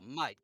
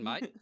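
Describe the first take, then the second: First: It sounds warm and friendly. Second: It sounds annoyed and hostile. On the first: The speaker is glad to see the person. "is a good mate" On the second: The speaker wants the person to go away. "That's your oh god, you fucking dickhead, go away"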